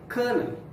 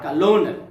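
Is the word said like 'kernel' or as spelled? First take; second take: kernel; as spelled. First: It is pronounced like the word kernel. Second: It is pronounced letter by letter as spelled. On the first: The speaker calls it right. "The correct pronunciation is kernel" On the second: The speaker calls it wrong. "a mispronunciation of the word"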